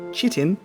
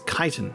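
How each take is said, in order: First: The word begins with a ch sound. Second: The word begins with a k sound. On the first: The speaker calls it wrong. "I would just pronounce it as it's spelt" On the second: The speaker calls it right. "but it is chitin. It's the K sort of C H"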